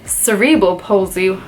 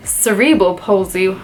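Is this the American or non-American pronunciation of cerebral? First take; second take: American; American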